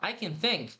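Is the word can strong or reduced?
reduced. The word can is weak, nearly gone.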